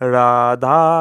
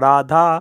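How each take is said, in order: First: The syllable 'dha' is drawn out long. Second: The syllable 'dha' is said short. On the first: It reaches the highest state of knowledge and liberation. "ধা বড় করে আমরা উচ্চারণ করি" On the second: It removes untimely death. "শুধু ধা"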